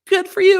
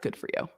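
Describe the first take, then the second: First: It sounds warm, excited and genuinely pleased. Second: It sounds flat, dismissive and sarcastic. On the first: The speaker is truly happy for the other person. "oh my God" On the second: The speaker does not really care or approve.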